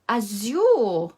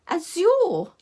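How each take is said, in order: First: It is said in her normal voice. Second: It is said in a put-on posh voice.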